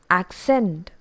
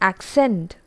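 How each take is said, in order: The two takes are said the same way.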